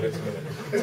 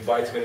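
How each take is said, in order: First: It is said with a British pronunciation. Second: It is said with an American pronunciation.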